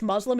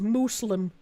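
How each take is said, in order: First: The word is pronounced plainly, in a normal way. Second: The word is pronounced with exaggerated foreign-style vowels. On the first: The speaker calls it right. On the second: The speaker calls it wrong.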